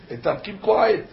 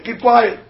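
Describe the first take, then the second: First: Said in the usual way. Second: Shouted hush. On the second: Retold or imitated. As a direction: bark the hush across the theater. Retold theater hush, shouted.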